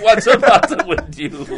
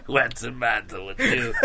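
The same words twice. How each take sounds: First: Higher, louder, slow and laughing. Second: Said in the usual way. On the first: Shown as a demonstration. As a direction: laugh the whole line out, stretched. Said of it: "con risa". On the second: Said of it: "en distintas circunstancias".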